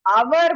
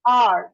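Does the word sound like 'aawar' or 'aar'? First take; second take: aawar; aar. First: It is said like 'aawar' with a w sound. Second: It is said like 'aar' with no w sound. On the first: The speaker calls it wrong. "आवर बोलते हैं सब लोग इसको" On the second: The speaker calls it right. "इसको आर बोला जाता है"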